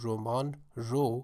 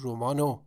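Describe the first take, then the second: First: A separate 'ro' follows the word. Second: Only an 'o' is attached to the word. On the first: This is the informal spoken style. "roman ra changes to roman ro" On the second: This is the most reduced informal style. "and even roman ro changes to romano"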